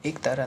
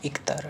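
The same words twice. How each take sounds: First: एक तारा with long e, ek-tara; full e at the start of एक तारा; wrong form. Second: एक तारा as ik-tara, short i; corrected form. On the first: Teacher shows the error, एक तारा as ek-tara. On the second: Teacher corrects students, एक तारा as ik-tara. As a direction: turn एक into ik before तारा. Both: Shown as a demonstration. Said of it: "नहीं".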